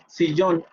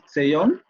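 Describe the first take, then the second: First: The first vowel is a close i sound. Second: The first vowel is an open e-like sound. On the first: "Si decimos sillón" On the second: "podrían a lo mejor entender una E ahí, pero seguirían entendiendo sillón"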